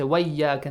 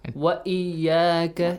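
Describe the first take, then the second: First: The glottal stop is dropped and the sounds run together. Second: A clear glottal stop is heard before iyyaka. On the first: The speaker calls it wrong. "Do not say وإياك" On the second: The speaker calls it right. "It's not Hamzatul Wasl. Yes, Hamzatul Qat"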